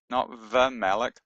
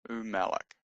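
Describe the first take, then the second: First: The word begins with a v sound. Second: The word begins with an oo sound. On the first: The speaker calls it wrong. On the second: The speaker calls it right. "it's a u sound, not a v sound"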